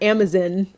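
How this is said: It is said in a British accent. "she says Amazon"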